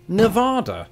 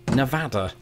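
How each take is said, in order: First: The second vowel matches the vowel in 'tostada'. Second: The second vowel differs from the vowel in 'tostada'. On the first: "the second vowel was equal to that in Tostada" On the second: "I vow to the people of Nevada that I will pronounce it Nevada"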